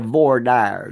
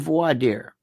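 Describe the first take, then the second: First: It is pronounced with an American-style sound. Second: It is pronounced with a French-style sound. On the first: "as you say" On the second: "means French"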